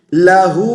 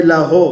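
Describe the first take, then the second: First: लहू ending on clear "hoo"; correct vowel. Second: लहो ending on "ho"; wrong vowel. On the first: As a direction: round लहू into a firm u. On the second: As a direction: show faulty लहो with open o. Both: Shown as a demonstration. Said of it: "हो नहीं है".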